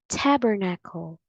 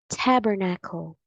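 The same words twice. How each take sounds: No difference in how they are said.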